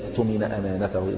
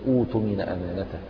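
First: It is joined to the word before without an initial vowel. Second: It begins with an initial 'u' vowel. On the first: The word is joined to the word before. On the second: The word begins the recitation.

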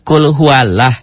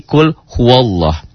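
First: The lam of Allah has a thin 'a' sound. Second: The lam of Allah has a thick 'o' sound. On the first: The speaker calls it wrong. "harusnya kan kul huwalah" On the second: The speaker calls it right. "tapi la-nya berbunyi O, jadi kul huwallah"

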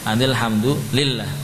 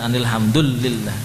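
First: The doubled l sound is held long. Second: The doubled l sound is said short. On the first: The speaker calls it right. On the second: The speaker calls it wrong.

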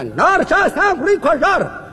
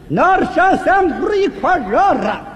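First: The phrase is spoken at a fast pace. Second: The phrase is spoken at a very slow pace. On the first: "英国话速度快的不能放慢了" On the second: "再慢点啊"

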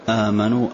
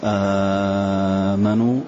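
First: The opening long vowel is held medium length. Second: The opening long vowel is held very long. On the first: "توسط" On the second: "مد"

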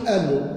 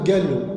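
First: It is said in a Tlemcen pronunciation. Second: It is said in a Blida pronunciation. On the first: "تروح لتلمسان يقول لك آلو" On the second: "تروح مثلا البليدة مثلا يقول قالو"

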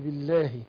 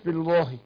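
First: The L sound is light and thin. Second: The L sound is heavy and full. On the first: The speaker calls it right. "عشان الباء هنا مكسورة، فايه اللام هتبقى ايه مرققة" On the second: The speaker calls it wrong. "ليه ما قلناش بالله؟"

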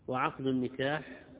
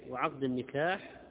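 The two takes are said the same way.

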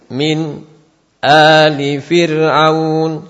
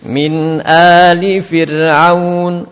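First: A brief silent stop comes before 'ali'. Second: The words flow on with no break. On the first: "Kita baca hamzah" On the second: "suaranya harus menyambung, tidak terputus"

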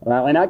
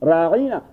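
First: The middle vowel is short. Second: The middle vowel is drawn out long. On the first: A request for consideration. "راغنا کے بجائے" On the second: An insult calling the listener a shepherd. "اس عین والے کسرے اور زیر کو ذرا طول دے دیتے"

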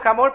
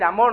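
First: The name starts with an audible breathy H sound. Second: The name starts directly with the vowel sound. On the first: "yo digo Hamor porque esa es la pronunciación real" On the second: "usted puede decir amor, no hay problema porque la H en español no se pronuncia"

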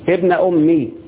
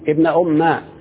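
First: The m is followed by a short i vowel. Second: The m is followed by a short a vowel. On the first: "تحذف الياء وتكسر الميم" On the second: "تحذف الياء وتفتح الميم"

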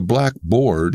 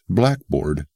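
First: The stress falls on the second part. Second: The stress falls on the first part. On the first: "A blackboard is the original term" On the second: It means a schoolroom writing slate. "the emphasis has shifted, hence blackboard"

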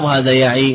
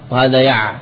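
First: The word ends with a long ee vowel. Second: The word ends without any final vowel. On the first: The speaker calls it right. "بإثبات الياء" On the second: The speaker calls it wrong. "ولا تقول"

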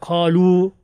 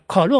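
First: The first vowel is drawn out long. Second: The first vowel is short and clipped. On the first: The speaker calls it right. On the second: The speaker calls it wrong.

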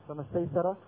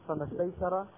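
The two takes are said the same way.

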